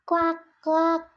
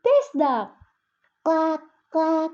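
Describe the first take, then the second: First: Playful duck quack. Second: High, loud toy duck quack; playful duck quack. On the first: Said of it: "and they both laughed". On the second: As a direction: make the toy quack for the baby. Sister playing with rubber toy. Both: Acted.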